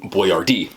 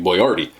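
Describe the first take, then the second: First: The name is said with an anglicized English pronunciation. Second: The name is said with its original Italian pronunciation. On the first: This version was made easy for customers to say. "he changed it to Boyardee and put it phonetically" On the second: This was his real family name. "His last name was really Boyardee"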